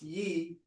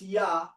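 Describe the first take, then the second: First: The syllable ends with an 'eh' vowel. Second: The syllable ends with an 'ah' vowel. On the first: It sounds feminine. The speaker calls it wrong. "you say it's ye" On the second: It sounds masculine. The speaker calls it right. "I say it's ya"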